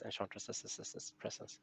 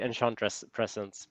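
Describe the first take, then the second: First: Enchantress is said with an added possessive syllable. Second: Enchantress is said without a possessive ending. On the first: The speaker calls it right. "probably correct way to say is Enchantress's presence" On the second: The speaker calls it wrong. "I usually say Enchantress presence"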